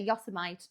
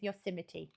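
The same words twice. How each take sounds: First: The name is said the way it looks spelled. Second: The name is said unlike how it looks spelled. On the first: The speaker calls it wrong. "It looks like it should say Yosemite" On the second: The speaker calls it right. "it's Yosemite, isn't it?"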